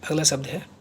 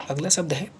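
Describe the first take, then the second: No difference in how they are said.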